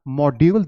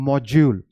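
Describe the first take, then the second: First: Module said "mod-YOOL" with a d; wrong d sound. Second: Module said "MOJ-yool", slowly; correct j sound. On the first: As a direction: say module with a hard d, no j. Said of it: "that's not". (module में "ड" वाला गलत उच्चारण) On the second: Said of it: "that is module". (module का सही उच्चारण "मॉज्यूल") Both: Shown as a demonstration.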